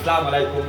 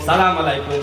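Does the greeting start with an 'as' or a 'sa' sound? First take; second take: sa; sa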